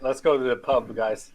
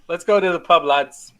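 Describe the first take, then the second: First: Said in the usual way. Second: Higher, louder call to the lads; rally the group for the pub. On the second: Acted. Player to the party heading pubward, rallying.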